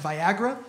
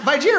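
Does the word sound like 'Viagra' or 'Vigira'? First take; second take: Viagra; Vigira. First: The word sounds like 'Viagra'. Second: The word sounds like 'Vigira'. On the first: The speaker calls it right. "that's actually pronounced Viagra" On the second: The speaker calls it wrong. "She kept calling it Vigira through the whole thing"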